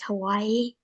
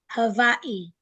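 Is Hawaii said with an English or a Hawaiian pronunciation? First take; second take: English; Hawaiian. First: It is said with an ordinary English pronunciation. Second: It is said with a native Hawaiian pronunciation. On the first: The speaker calls it wrong. "it's actually not pronounced Hawaii" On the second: The speaker calls it right. "It's actually pronounced Hawaii"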